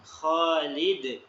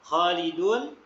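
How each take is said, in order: First: The word ends on a bouncing consonant stop. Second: The word ends with a full vowel ending. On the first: The reader stops at this word. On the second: The reader carries on without stopping.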